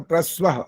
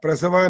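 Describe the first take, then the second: First: The s is joined straight onto pra. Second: The s is followed by a full vowel. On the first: The speaker calls it right. "स को प्र के साथ जोड़ना पड़ेगा" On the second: The speaker calls it wrong. "प्रसव नहीं बोलना"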